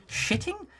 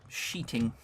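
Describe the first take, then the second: First: "Shitting" with a short i, pitched high; high, querying "Shitting" with a short i; questioning pronunciation. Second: "Sheeting" with a long ee, soft and low; low, quiet accented "Sheeting"; accented pronunciation. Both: Acted. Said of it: "Don't make fun of my accent".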